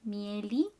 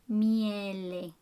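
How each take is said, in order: First: "mieli" with a wrong li ending. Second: "miele" with every vowel clear, no li; correct vowels. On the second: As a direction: say "miele" cleanly, mi-e-le. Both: Shown as a demonstration. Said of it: "don't pronounce li".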